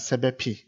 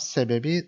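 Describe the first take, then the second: First: The last consonant is a hard p sound. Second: The last consonant is a soft b sound. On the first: The speaker calls it wrong. "it is hard to say" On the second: The speaker calls it right. "it becomes sebebi softly"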